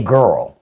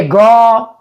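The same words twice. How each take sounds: First: Said in the usual way. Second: Put-on GIRL as "gawl", R and L dropped; drawled "gaw" for girl; Southern girl attempt. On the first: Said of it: "I wanna say girl". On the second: Shown as a demonstration. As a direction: try "girl" country-style, without the R. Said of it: "I can't even say it right".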